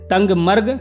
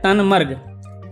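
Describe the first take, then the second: First: A g sound is heard before 'marg'. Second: No g sound is heard before 'marg'. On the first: Some people say it this way. "कुछ लोग इसे कहते हैं तंगमर्ग" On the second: Other people say it this way. "कुछ कहते हैं तनमर्ग"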